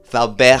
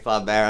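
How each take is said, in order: First: The name is attempted with French sounds. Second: The name is said with English sounds. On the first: "I'm trying to pronounce it right, but I am not French" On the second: "I'm just gonna say Flaubert"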